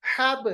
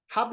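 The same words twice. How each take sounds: First: हब released with a bouncing b; qalqalah. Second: Said in the usual way. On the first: Shown as a demonstration. Teacher corrects learners, हब with echoing b. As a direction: pop हब open as "habe". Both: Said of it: "हब नहीं पढ़ते".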